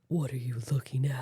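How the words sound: It sounds aggressive, like ready to fight. The speaker calls it wrong. "You sound like you're ready to fight"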